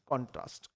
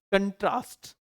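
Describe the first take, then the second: First: कॉन्ट्रास्ट with stress on the first syllable "KON-trast"; noun stress. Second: कंट्रास्ट with stress on the second syllable "kən-TRAST"; verb stress. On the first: Teacher models the noun form of contrast. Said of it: "होता है कॉन्ट्रास्ट।". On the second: Teacher models the verb form of contrast. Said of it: "जब verb के रूप में use हो तब बोलेंगे". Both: Shown as a demonstration.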